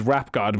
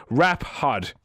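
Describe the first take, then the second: First: Said in the usual way. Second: "hod" said with an H, as typed; misspelling read literally. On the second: Shown as a demonstration. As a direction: read "hod" deliberately, H in place of G. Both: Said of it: "might have meant rap god".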